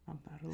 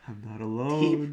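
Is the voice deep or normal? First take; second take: normal; deep. First: It is said in a normal voice. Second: It is said in a deep voice.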